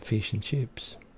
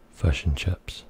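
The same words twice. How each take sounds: First: It is said in an Australian accent. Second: It is said in a New Zealand accent.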